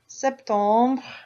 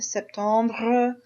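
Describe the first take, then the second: First: The final R sound is weak. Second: The final R sound is strong.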